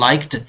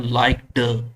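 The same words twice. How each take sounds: First: "liked" ending in a crisp t, "laikt"; correct pronunciation. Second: "liked" with a voiced d and an extra vowel, "laik-duh"; students' wrong "liked"; wrong pronunciation. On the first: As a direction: finish "liked" with a t sound. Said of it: "No, it's not liked". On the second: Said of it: "students इस तरीके से pronounce करते हैं". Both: Shown as a demonstration.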